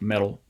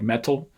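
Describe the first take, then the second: First: The middle consonant is a quick tongue flap. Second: The middle consonant is a full, clear stop. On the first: "you just kind of flap it up and make it make brief contact" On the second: "make this a complete stop"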